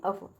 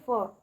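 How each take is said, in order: First: अफ said as the full letter name, the way not to read it; teacher warns children to avoid saying अफ, full letter name; wrong letter name. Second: फ said as a short plain f sound, not the name अफ; teacher shows children to read फ, the short f sound; short letter sound. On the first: Letter name said as the wrong example. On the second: Crisp short letter sound. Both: Shown as a demonstration. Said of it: "ना कि अफ".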